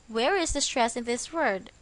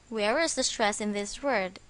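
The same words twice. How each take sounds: The two takes are said the same way.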